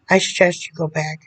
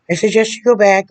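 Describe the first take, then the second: First: Said in the usual way. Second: Emphatic repeat. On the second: Real, not acted. Insisting he return to therapy, louder emphatic repeat. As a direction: hammer the advice home with a raised voice. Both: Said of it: "repeats it louder".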